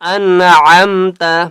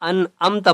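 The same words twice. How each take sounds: First: The middle ain sound is clearly pronounced. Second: The middle ain sound is dropped, said plainly. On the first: The speaker calls it right. "आइन की आवाज निकालनी है" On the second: The speaker calls it wrong. "अक्सर गलती क्या करते हैं, अनअमता पढ़ते हैं"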